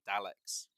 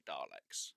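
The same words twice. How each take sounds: First: Daleks with short A, as in cat; original pronunciation. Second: Daleks low and soft with a long "ar"; rejected pronunciation. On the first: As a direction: say Daleks without any R. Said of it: "they do actually say Daleks". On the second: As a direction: drop the voice on Daleks, said Darleks. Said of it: "not Daleks". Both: Shown as a demonstration.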